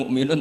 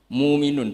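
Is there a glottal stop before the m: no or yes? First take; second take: yes; no. First: A glottal stop is said before the m. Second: The hamza is dropped and the vowel is lengthened. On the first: The speaker calls it wrong. "bukan mukminun" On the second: The speaker calls it right. "bukan mukminun tapi muminun"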